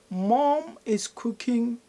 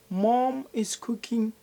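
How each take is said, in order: The two takes are said the same way.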